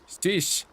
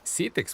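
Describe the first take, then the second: First: The name is said as one short 'sheesh' syllable. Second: The name is said as two syllables, 'se-tix'. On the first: It copies how a computer voice read the name. The speaker calls it wrong. "How did that voice pronounce it?" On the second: It is how the name is really said. The speaker calls it right. "That's not Sheesh. That's Cetix"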